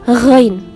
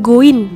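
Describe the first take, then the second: First: It begins with a rough throaty friction. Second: It begins with a hard g stop. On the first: The speaker calls it right. "tapi ghain" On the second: The speaker calls it wrong. "bukan goin"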